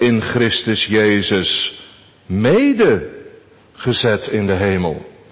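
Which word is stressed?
mede. The stress falls on the part mede. "Onze derde gedachte"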